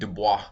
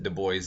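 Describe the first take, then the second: First: The name is said the French way. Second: The name is said an English way. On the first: This is how the French surname would normally sound. "the French last name would have been Dubois" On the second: This is how the man himself said his name. "he pronounced it Du Bois"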